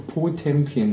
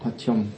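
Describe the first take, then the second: First: The name is read with German letter sounds. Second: The name has 'pa' and a 'tyom' syllable. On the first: "Wenn du die Buchstaben als Deutsche auffasst, ja, so ungefähr, dann heißt es Potemkin" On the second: "Und das unbetonte O ist ein A. Und das ist Patjomkin"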